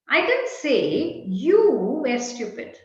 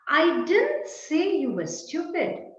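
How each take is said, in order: First: The stress falls on the word you. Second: The stress falls on the word didn't. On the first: It was said about someone else. "Perhaps I said X was stupid" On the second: The saying is flatly denied. "No, I didn't say it"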